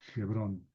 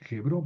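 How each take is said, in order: First: The word begins without any H sound. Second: The word begins with an audible H sound. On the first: The speaker calls it wrong. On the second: The speaker calls it right.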